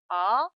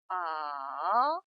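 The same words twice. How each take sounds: First: The pitch rises quickly from middle to high. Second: The pitch dips low, then rises again. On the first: "미의 음에서 단숨에 곡선을 타면서 솔의 음 높이로 올립니다" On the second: "레의 음에서 도의 음으로 내려왔다가 다시 파까지 올라가는 음입니다"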